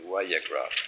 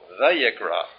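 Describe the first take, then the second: First: The word begins with a W sound. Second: The word begins with a V sound. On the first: The speaker calls it right. "probably better would be" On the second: The speaker calls it wrong. "some will call it Vayikra"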